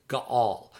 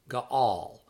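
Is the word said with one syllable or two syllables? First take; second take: two; two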